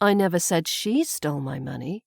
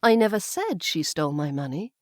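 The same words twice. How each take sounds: First: The stress falls on the word she. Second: The stress falls on the word said. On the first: Someone else perhaps stole it. "I've put the emphasis now on the she" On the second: It was only hinted or implied. "maybe I hinted or implied it, but I didn't say it outright"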